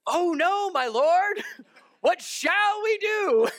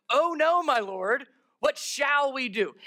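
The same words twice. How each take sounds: First: High, loud, drawn-out mock wail; hammed-up panic. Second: Lightly acted cry of dismay, raised pitch; mild dismay. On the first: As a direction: overact a terrified servant, crying out with a laugh. Acts out servant seeing the army. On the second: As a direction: read the servant's alarm with restraint. Reads servant's panicked line aloud.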